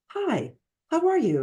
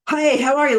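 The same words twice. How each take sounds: First: It is said softly with calm, lower volume. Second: It is said loudly with high intensity. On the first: The speaker is calm and warm. "Like the volume, it comes down to like a five" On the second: The speaker is driven and wants to get things done. "lot of intensity. They're like the eight, nine, ten"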